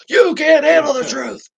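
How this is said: It is said in a put-on character voice. The speaker calls it right. "she has to do it in that voice"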